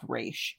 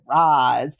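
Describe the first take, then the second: First: The name ends with an 'sh' sound. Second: The name ends with a 'z' sound. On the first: This follows the original creators' intended Hebrew pronunciation. The speaker calls it right. "it's pronounced Raish" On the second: This follows the film's changed pronunciation. The speaker calls it wrong. "We're going to pronounce it Raz"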